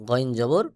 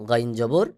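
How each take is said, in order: No difference in how they are said.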